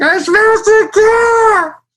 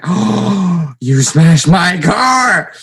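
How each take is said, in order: First: Loud, very high, drawn-out mock bawling; hammed-up crying shout; tearful wail. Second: Loud, high, drawn-out outraged yell; gasp, then bellow like a furious dad; hammed-up imitation of an upset father; pissed-off dad. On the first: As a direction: howl the confession in fake tears. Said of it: "I was in tears". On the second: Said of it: "he was really pissed".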